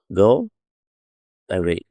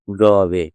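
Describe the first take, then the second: First: "go away" as two full words with a gap; separate words. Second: "go away" glided into one word, "go-way"; run together. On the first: Teacher shows the original form, "go away" split apart. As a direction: say "go", pause, then "away" in full. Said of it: "ఇది చూడండి ఇట్లా ఉండేది". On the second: Teacher shows elision, "go away" run together. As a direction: link "go" straight into "away", swallowing the vowel. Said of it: "తీసేశారు". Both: Shown as a demonstration.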